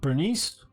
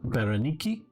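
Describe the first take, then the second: First: The name is said in an English style. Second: The name is said in a Greek style.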